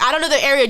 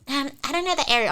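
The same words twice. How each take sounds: First: Louder echo of her excuse; retold retort. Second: Slightly higher, hesitant mimicry; reluctant girl. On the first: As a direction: throw the excuse back forcefully. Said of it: "I'm like". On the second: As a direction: imitate a girl's feeble excuse. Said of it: "She's like".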